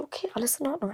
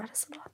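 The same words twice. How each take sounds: First: Said in the usual way. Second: Barely breathed, fading to a whisper; a whispered echo to calm herself; whispered reassurance. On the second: Retold or imitated. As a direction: whisper it to yourself to stay calm. Calming herself, repeating reassurance.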